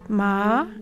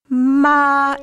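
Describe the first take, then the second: First: The pitch glides gently upward. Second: The pitch stays level and sustained. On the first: "The second tone, which is a gentle upward gliss" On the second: "it's a flat tone. It's really sung"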